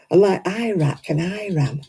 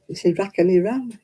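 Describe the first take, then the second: First: Iraq and Iran with flat American a sounds. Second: Iraq and Iran with a broad open a, British style. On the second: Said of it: "what's all that about". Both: Shown as a demonstration.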